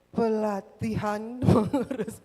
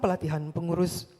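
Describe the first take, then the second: First: The phrase is spoken very slowly. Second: The phrase is spoken very quickly. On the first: "Tidak terlalu lambat" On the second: "Tidak juga boleh terlalu cepat"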